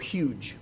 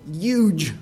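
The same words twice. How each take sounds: First: It is said in a plain, ordinary accent. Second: It is said in an imitated New York accent.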